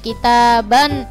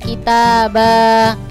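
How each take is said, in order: First: It ends in a short vowel plus n. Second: It ends in a long open vowel. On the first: The speaker calls it right. "tapi kitaban muajjala" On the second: The speaker calls it wrong. "jadi bukan kitaba"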